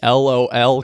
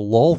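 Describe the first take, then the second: First: It is pronounced as three separate letters. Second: It is pronounced as a single word. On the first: The speaker calls it right. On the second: The speaker calls it wrong.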